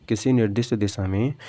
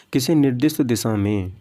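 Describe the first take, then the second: No difference in how they are said.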